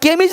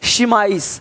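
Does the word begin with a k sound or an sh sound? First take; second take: k; sh. First: The word begins with a k sound. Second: The word begins with an sh sound. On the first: The speaker calls it wrong. "यहाँ पे केमिज नहीं है" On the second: The speaker calls it right. "शिमाइस देख रहे हो"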